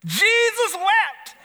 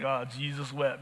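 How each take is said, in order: First: Much higher, louder, slow mock-proud proclamation of "Jesus wept"; proud squeak. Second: Softer, lower snickering aside on "Jesus wept"; quiet aside. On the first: Preacher mimicking a churchgoer proudly reciting "Jesus wept", high and slow. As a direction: announce "Jesus wept" like a grand feat, squeaky and drawn out. Clueless congregant's proud short verse. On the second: Retold or imitated. Preacher voicing amused kids muttering "Oh, Jesus wept" quietly. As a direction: murmur "Oh, Jesus wept" like a kid poking fun.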